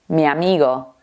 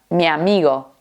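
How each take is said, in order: First: The i and a blend together. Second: The same.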